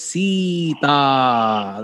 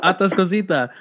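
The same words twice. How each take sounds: First: Atascosita drawn out syllable by syllable; slow pronunciation. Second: Said in the usual way. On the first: Shown as a demonstration. Cohost asks host to say the town name slowly. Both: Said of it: "slow, say slow".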